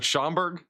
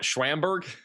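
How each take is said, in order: First: The name has no W sound after Sch. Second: The name starts with a W sound after Sch.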